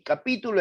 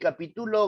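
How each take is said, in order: First: The stress is on the second syllable. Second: The stress is on the third syllable. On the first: "esdrújula"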